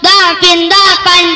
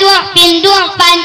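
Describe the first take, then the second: First: The first vowel is an 'a' sound. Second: The first vowel is a 'u' sound.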